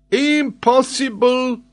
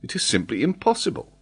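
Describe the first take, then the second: First: Very high, loud, stretched exclamation; indignant French geographer. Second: Higher-pitched, unforced dismissal; dismissive. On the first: Acted. Geographer throws Glenarvan's word back, indignant. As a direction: echo it in loud French-accented outrage. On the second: A narrator's reading. Glenarvan doubts the geographer, dismissive. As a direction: wave the idea away. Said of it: "shrugging his shoulders".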